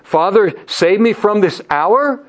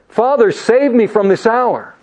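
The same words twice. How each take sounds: First: It is said with a questioning tune. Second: It is said with a statement tune.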